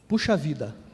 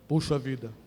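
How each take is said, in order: First: It is said in an ordinary, higher voice. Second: It is said in a deeper voice.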